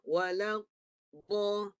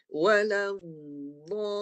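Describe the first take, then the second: First: The sound is stopped briefly, then released. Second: The sound flows on without any stop. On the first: The speaker calls it wrong. "Ini namanya menahan. Baru lepas" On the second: The speaker calls it right. "tak berhenti. Suaranya tak putus"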